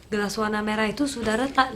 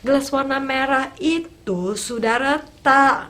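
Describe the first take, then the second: First: It is said in a gentle, soft tone. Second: It is said in a rude, harsh tone. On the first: The speaker is being respectful to an elder. The speaker calls it right. "yang satu mengatakannya dengan lembut" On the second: The speaker is being disrespectful to an elder. The speaker calls it wrong. "yang satu mengatakannya dengan kasar"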